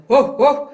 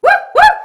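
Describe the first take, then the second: First: Loud woofs in chest voice; short chesty barks; low-voice big dog. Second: Very high, loud head-voice yips; squeaky small-dog woofs; little dog bark. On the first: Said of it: "we have this low voice". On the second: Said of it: "the little s-, dog". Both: Shown as a demonstration.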